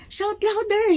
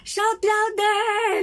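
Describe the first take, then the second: First: High, loud jeering call; mocking taunt. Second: High, slow, teasing jeer; mocking taunt. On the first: Elijah taunting the prophets again, high and jeering. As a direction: jeer at them to shout. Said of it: "he said". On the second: Elijah taunting the prophets of Baal, slow high mockery. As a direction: drag it out to mock them. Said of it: "nang aasar".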